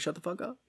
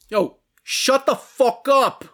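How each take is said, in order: First: It is said in a plain voice. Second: It is said in a Jersey accent.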